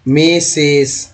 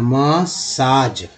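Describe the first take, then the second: First: मेसेज drawn out very slowly as a mistaken reading; wrong reading shown. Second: मसाज said very slowly, short a then long aa; correct pronunciation. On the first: Teacher showing the mistaken reading of massage. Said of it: "फिर से पढ़ देंगे". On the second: Teacher giving the right reading to students. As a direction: spell out मसाज slowly, ma-saaj. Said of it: "वो आ उच्चारण हो रहा है". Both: Shown as a demonstration.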